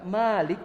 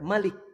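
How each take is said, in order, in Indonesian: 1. Vokal setelah m panjang. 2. Vokal setelah m pendek.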